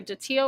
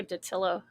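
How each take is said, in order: First: Datillo with a silent L, "dih-TEE-oh"; first pronunciation option. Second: Datillo with a clear L, "duh-TILL-oh"; second pronunciation option. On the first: Weighing a chatter's surname, Datillo said as "dih-TEE-oh". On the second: Weighing a chatter's surname, Datillo said with the L. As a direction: sound the L in Datillo: "tih-LOH" ending. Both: Shown as a demonstration. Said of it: "it's either Datillo or Datillo".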